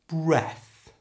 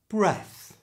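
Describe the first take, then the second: First: The word is said slowly and carefully. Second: The word is said at normal conversational speed. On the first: "First, slowly" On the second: "And now at normal speed"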